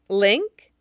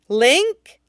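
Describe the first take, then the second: First: It is said at normal volume. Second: It is said quite loudly.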